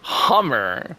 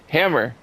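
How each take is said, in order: First: The word is said in a posh, regal way. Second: The word is said in a plain, everyday way. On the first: "be like all like regal and say Hummer" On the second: "I just say hammer"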